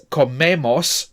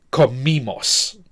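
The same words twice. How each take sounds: First: Comemos said "ko-MEH-mos"; an open e in the middle of comemos. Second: Comimos said slowly as "ko-MEE-mos"; a long "ee" in the middle of comimos. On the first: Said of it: "with an E, emos". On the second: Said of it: "this time it's with an I". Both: Shown as a demonstration.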